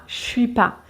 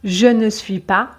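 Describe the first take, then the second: First: "je suis pas" as two syllables, chui pa; contracted negation. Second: "Je ne suis pas" with je and ne both sounded; full negation. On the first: Teacher shows students casual French, "je suis pas" as chuis pas. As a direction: drop ne and fuse "je suis" into chui. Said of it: "on ne prononce pas le E de je". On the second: Teacher gives students the written form, full "Je ne suis pas". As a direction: say every syllable of "Je ne suis pas". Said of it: "on va enlever le ne". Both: Shown as a demonstration.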